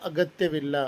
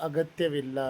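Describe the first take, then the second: No difference in how they are said.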